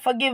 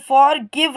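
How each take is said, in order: First: The r sound is left silent. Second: The r sound is clearly pronounced. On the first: The speaker calls it right. "आजकल के modern की English की बात करें तो यहाँ पे आप फॉरगिव बोलेंगे" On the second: The speaker calls it wrong. "अगर हम नॉर्मली पढ़ें तो फॉर गिव हमें पढ़ना है"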